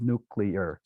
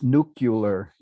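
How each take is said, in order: First: The ending sounds like the word clear. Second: The ending sounds like the end of popular. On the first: This is the older form the speaker uses. "instead of nuclear" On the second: This is the form many presidents use. "almost every president uh, since Eisenhower says nuclear"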